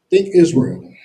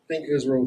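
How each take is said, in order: First: A teacher stressing "think" to wake the class; emphatic repeat. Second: Said in the usual way. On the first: Shown as a demonstration. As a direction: THINK punched loud on think Israel.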